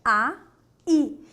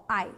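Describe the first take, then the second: First: Loud "A", pause, then "i"; two separate syllables. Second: "ai" as one falling, lower glide; one single breath. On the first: Teacher contrasts two words, clearly separated syllables. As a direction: split it into "A" and "i". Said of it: "que é diferente do quê". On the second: Teacher contrasts it with aí, single-breath glide. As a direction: run "ai" together in one syllable. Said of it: "É o único respirar". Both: Shown as a demonstration.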